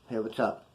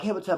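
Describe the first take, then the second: First: It is said in a flat, tough tone. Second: It is said in a cheerful, friendly tone.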